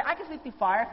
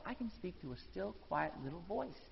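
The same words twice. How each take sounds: First: Said in the usual way. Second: Much softer, near a whisper on quiet little voice. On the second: Shown as a demonstration. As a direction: drop the voice right down to show the still small voice.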